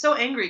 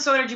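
First: The handle sounds like the word angry. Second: The handle sounds like the word energy. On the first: The speaker calls it right. "but it's so angry" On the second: The speaker calls it wrong. "everyone always calls it so energy"

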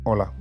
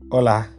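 First: It is said with a serious face. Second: It is said while smiling, sounding warm.

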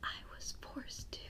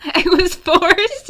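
First: It is said quietly. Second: It is said loudly.

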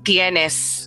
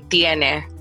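First: The final s sound is clearly pronounced. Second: The final s sound is dropped. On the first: "Or saying tienes" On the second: "the letter S disappear in most of the words"

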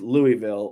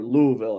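First: It is pronounced the way outsiders usually say it. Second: It is pronounced the way the locals say it.

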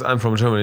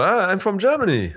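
First: It is said in a flat, unexcited tone. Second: It is said in a happy, beaming tone.

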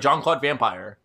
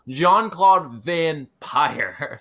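First: The last word sounds like the ordinary word vampire. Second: The last word is split into 'van' and 'pire'. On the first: The speaker calls it wrong. "people are just gonna be like" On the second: The speaker calls it right. "You have to say it a very specific way"

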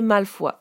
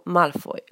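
First: The name is pronounced the French way. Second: The name is pronounced the English way. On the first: "En français, le nom de famille peut se prononcer Malfoy" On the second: "mais en anglais, on dit Draco Malfoy"

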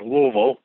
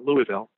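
First: It is pronounced the way local residents say it. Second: It is pronounced the way outsiders usually say it.

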